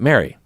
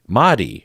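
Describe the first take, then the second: First: It is said like English Mary, with an English r. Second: It is said the Japanese way, with a tapped r. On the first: The speaker calls it wrong. "I have been mispronouncing your name" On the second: The speaker calls it right. "it's a Japanese pronunciation of Madi"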